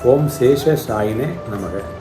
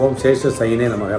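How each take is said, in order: First: The first vowel of 'Sayine' is drawn out long. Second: The first vowel of 'Sayine' is clipped short. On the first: The speaker calls it right. "சாயினே நெடில்" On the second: The speaker calls it wrong. "சொல்கிற மாதிரி ஆகிடும்"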